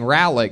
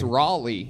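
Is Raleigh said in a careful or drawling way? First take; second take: careful; drawling. First: The name is said in a plain, careful way. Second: The name is said in a loose, drawling way. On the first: The speaker calls it wrong. "I was saying it wrong. I was saying Raleigh" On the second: The speaker calls it right. "You have to say Raleigh like it's some like guy at a truck stop"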